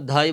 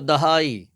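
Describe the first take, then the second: First: The d and h merge into one breathy sound. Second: The d and h are in separate syllables. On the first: The speaker calls it wrong. "बच्चे भी इसमें गलती करते हैं, जिसको धाई बोलते हैं" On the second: The speaker calls it right. "तो दहाई"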